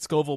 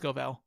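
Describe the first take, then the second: First: The last syllable sounds like 'vill'. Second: The last syllable sounds like 'vell'. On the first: The speaker calls it wrong. "I pronounced it Scoville before" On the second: The speaker calls it right. "but it's Scovell"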